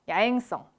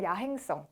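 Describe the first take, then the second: First: The middle h sound is weakened or dropped. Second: The middle h sound is clearly pronounced. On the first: This is how most people casually say it. The speaker calls it wrong. "이렇게 많이 얘기하죠" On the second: It sounds refined and polished. The speaker calls it right. "신경 써서 발음해주면 굉장히 고급스럽게 들립니다"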